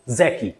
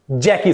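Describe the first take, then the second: First: "जैकी" said as "ज़ैकी", starting with a buzzing Z; Z sound. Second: "जैकी" starting with a hard J as in "jam"; J sound. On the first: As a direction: say "जैकी" with Z in place of J. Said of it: "it is Z". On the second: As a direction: say "जैकी" with "ज", not "ज़". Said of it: "it is not J". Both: Shown as a demonstration.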